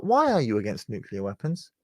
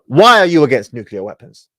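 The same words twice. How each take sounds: First: Soft "Why are you against nuclear weapons", rising at the end; questioning inflection. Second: Loud, emphatic "Why are you against nuclear weapons", stated not asked; downwards inflection. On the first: Shown as a demonstration. Commentator showing the alternative, mild "Why are you against nuclear weapons" with questioning rise. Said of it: "Pay attention to the inflection". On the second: Retold or imitated. Commentator demonstrating the interrupter's manner, "Why are you against nuclear weapons" as forceful statement. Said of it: "With a downwards inflection".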